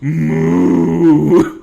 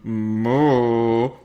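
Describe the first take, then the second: First: It is said in a demonic voice. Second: It is said in a serious voice.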